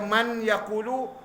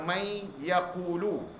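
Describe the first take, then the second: First: The n is pronounced fully before the y. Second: The n merges nasally into the following y. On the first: The speaker calls it wrong. "Kalau baca man yaqulu, salah" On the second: The speaker calls it right. "kena baca may yaqulu"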